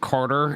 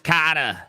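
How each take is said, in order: First: The name is said in a neutral accent. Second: The name is said in a Boston accent.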